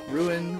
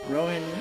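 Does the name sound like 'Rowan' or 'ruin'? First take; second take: ruin; Rowan. First: It is said to sound like 'ruin'. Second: It is said with two syllables, like 'Rowan'. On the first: "I always want to pronounce it ruin" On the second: "your name is probably pronounced Rowan, like a tree"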